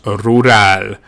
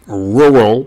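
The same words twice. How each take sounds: First: It is said with a rolled Spanish R. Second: It is said with English R sounds.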